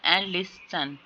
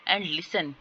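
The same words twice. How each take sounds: First: "listen" split in two with a held s; syllable by syllable. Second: Said in the usual way. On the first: Shown as a demonstration. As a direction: break "listen" into lis and sen. ("listen" को दो syllable में तोड़कर) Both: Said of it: "इसमें vowel sound नहीं है".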